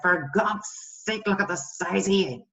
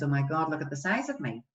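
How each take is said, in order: First: Acted exasperated scolding of yourself; harsh self-talk. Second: Mildly downcast acted complaint; friend's self-criticism. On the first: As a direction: tear into yourself, mildly disgusted. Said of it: "Note the tone, the change in tone". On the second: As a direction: confide it with a touch of despair. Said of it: "my friend comes in and says".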